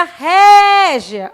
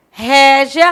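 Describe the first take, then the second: First: Régia with a raised, stressed ré; Régia with a high, stressed ré. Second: Said in the usual way. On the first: Shown as a demonstration. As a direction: lift the first syllable of Régia. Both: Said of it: "Olha como o som dela é no ré".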